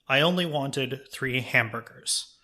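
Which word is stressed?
three. The stress falls on the word 'three'. "you stress a different word in the sentence"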